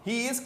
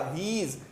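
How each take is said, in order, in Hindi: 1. दोनों शब्द अलग-अलग बोले जाते हैं। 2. दोनों शब्द मिलकर एक अक्षर बन जाते हैं।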